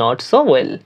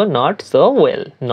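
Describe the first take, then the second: First: Said in the usual way. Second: "not so well" drawn out word by word; slow first take of "not so well"; teacher saying "not so well" slowly; slow demo. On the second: Shown as a demonstration. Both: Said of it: "বলার ক্ষেত্রে বলবো".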